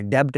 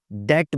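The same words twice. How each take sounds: First: डेब्ट with the b sounded; mispronounced B. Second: डेट with no b; silent B. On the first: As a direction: say डेब्ट as debt with audible b. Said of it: "डेब्ट नहीं बोलना". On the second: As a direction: say डेट as det. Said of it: "डेट बोलना है". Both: Shown as a demonstration.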